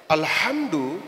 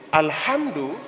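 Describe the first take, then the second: The two takes are said the same way.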